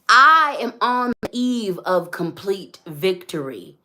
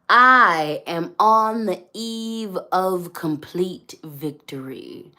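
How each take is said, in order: First: It is said at a normal pace. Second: It is said slowly and deliberately.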